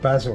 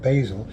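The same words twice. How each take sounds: First: It is said with a non-American pronunciation. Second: It is said with an American pronunciation. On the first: "we call it" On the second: "an American calls it"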